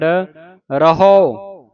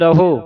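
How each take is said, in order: First: The final vowel is an open 'au' sound. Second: The final vowel is a closed 'o' sound. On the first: "ਪਰ ਇਸ ਦਾ ਜਿਹੜਾ ਉਚਾਰਨ ਹੈ ਰਾਰਾ ਹਾਹਾ ਊੜੇ ਔਂਕੜ" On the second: "ਰਹੋ ਹੁੰਦਾ ਰਾਰਾ ਹਾਹੇ ਔਂਕੜ ਰਹੋ"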